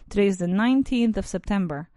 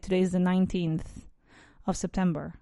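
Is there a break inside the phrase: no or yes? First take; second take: no; yes. First: It flows through with no break inside. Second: It has a break inside the phrase. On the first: The speaker calls it right. "I do not take a break there" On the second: The speaker calls it wrong. "I do not say"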